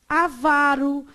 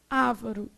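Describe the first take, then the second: First: The stress falls on the second syllable. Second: The stress falls on the first syllable. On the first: The speaker calls it right. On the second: The speaker calls it wrong.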